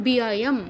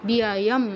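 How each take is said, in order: The two takes are said the same way.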